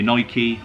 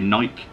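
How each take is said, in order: First: The word is said the American way. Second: The word is said the British way. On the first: "If you're American, it's probably Nike" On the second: "Us Brits tend to say Nike"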